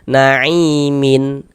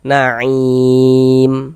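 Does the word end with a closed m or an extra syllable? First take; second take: extra syllable; closed m. First: The word ends with an added -in syllable. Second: The word ends on a closed, silent-vowel m. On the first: The reciter reads on as if not stopping. The speaker calls it wrong. "Jangan dibaca naimin" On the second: The reciter pauses and stops at this word. The speaker calls it right. "kita baca naim. Nah, kita matikan"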